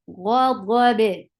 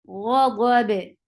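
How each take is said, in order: No difference in how they are said.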